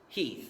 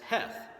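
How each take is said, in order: First: The name has a long 'ee' vowel. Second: The name has a short 'eh' vowel. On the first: This is how it was said in the 1860s. The speaker calls it right. "it was pronounced Heath during the Civil War" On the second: This is how the spelling suggests it today. The speaker calls it wrong. "by today's standards, his last name looks like you'd pronounce it as Heth"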